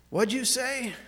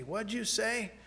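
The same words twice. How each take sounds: First: Startled, louder question from a woken wife. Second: Said in the usual way. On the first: Retold or imitated. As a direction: jolt awake and demand an answer.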